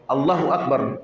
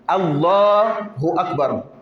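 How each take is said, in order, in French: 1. La voyelle après le L est brève. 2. La voyelle après le L est allongée. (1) "Il ne va pas tirer les lames. Allah, il ne tire pas" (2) "Le la est tiré"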